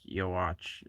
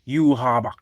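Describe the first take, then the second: First: The name ends with a 'watch' sound. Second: The name ends with a 'bak' sound. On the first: The speaker calls it wrong. "It's actually not pronounced Yowatch" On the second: The speaker calls it right. "It's pronounced like Yuhabak or something like that"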